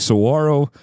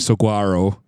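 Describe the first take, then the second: First: The middle consonant is an H sound. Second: The middle consonant is a hard G sound. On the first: The speaker calls it right. "the G in Spanish is a huh" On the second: The speaker calls it wrong. "We used to say saguaro"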